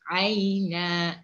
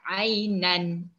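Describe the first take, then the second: First: The word ends on an open vowel. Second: The word ends with an n sound. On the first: The speaker calls it right. "Jadi aina" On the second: The speaker calls it wrong. "kalau waqaf jangan kita ni baca ainan"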